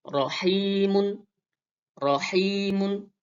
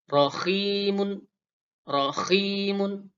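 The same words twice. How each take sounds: First: Rahimun with a light h; rahimun, thin airy h. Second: Rahimun with a raspy kh in the middle; rahimun, the h rasped like kh; raspy kha. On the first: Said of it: "huruf ha". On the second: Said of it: "Jadi agak serak-serak dia". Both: Shown as a demonstration.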